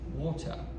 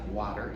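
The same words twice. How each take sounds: First: It is said with a British accent. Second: It is said with an American accent. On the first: The speaker calls it right. "she's got a very proper British accent" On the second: The speaker calls it wrong. "are Americans"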